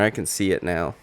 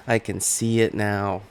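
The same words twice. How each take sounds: First: Said in the usual way. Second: Conor McGregor impression. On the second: Repeats line, second in Conor voice.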